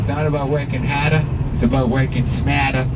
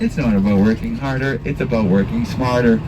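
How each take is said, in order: First: It is spoken in a Boston accent. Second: It is spoken in a general American accent. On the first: "For those of you that are not familiar with the Boston accent" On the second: "Bostonian English Translation"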